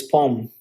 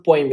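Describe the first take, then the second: First: "poem" said as POME, no glide; one long o in "poem", then m; "poem" as a single syllable, pome; corrected poem. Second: "poem" said as POY-m; "poem" with a y sound inside, poy-m; mispronounced poem. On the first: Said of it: "it's poem". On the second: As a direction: give "poem" an oy glide. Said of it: "it's not poem". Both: Shown as a demonstration.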